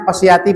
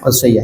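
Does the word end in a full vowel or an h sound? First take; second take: full vowel; h sound. First: The word ends with a full -ti syllable. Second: The word ends with a soft h sound. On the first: This is the underlying full form. "Aslinya qasiyati" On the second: This is how it is read at a stop. "bacanya qasiyah"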